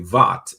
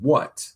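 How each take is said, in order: First: It starts with a V sound, German-like. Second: It starts with a W sound, plain English.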